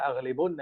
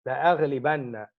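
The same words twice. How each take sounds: First: "أغلبن" said with an u before the doubled n, aghlibunna; "أغلبن" with a short u in place of a; dhamma vowel. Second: "لأغلبن" said with an a before the doubled n, la-aghlibanna; "لأغلبن" with a short a before a held n; fatha vowel. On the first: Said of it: "if you put a dhamma". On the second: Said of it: "change that to a fatha". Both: Shown as a demonstration.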